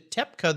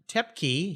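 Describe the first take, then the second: First: The surname is said in a German way. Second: The surname is said in a non-German way. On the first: "the German pronunciation" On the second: "He just said Tep Tepke"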